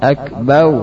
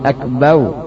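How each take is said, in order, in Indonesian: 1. Suku kata terakhir berakhir dengan bunyi w. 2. Suku kata terakhir berakhir dengan bunyi w.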